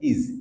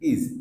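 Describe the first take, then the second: The two takes are said the same way.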